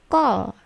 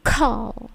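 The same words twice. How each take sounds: First: "call" with no puff, nearly "gol"; wrong non-plosive K. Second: "call" with a strongly puffed K; plosive K. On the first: Teacher showing students the wrong call, unaspirated K. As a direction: soften the C of "call" towards a G. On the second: Teacher correcting students' call, aspirated K. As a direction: burst of air on the C of "call". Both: Shown as a demonstration.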